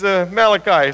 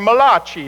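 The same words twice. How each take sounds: First: The name is said with a plain English pronunciation. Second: The name is said with an Italian-sounding pronunciation. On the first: The speaker calls it right. "but he's Malachi" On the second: The speaker calls it wrong. "if you want to the Italian prophet"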